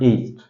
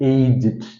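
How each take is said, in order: First: The word is said with one syllable. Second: The word is said with two syllables. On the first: It is the verb meaning grew older. The speaker calls it wrong. "not aged. ഏജ്ഡ് എന്ന് പറയുന്ന pronunciation ഉണ്ട്, അതൊരു വെർബാണ്" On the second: It describes someone's age as an adjective. The speaker calls it right. "So you have to pronounce it middle aged"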